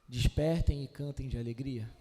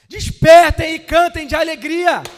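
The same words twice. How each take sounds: First: It is said in a calm, low-energy way. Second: It is said in an excited, high-energy way. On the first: The speaker calls it wrong. "Vocês acham que Isaías está falando assim" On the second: The speaker calls it right. "quando ele está aqui empolgado"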